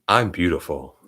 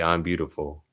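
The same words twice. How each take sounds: First: It is said with strong, heartfelt feeling. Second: It is said flatly, without feeling.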